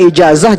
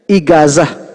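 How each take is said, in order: First: The middle consonant is a j sound. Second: The middle consonant is a hard g sound.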